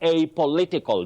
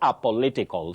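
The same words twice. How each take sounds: First: The word begins with an 'ay' vowel sound. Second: The word begins without an 'ay' vowel sound. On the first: The speaker calls it right. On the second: The speaker calls it wrong.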